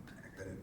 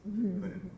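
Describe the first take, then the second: First: Breathy whisper, much softer; soft whispered echo of I couldn't. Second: Pitched well up with feeling; high, emphatic I couldn't. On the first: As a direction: drop to a hushed whisper. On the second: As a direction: lift it high, almost disbelieving. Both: Acted. Repeats the line for emphasis.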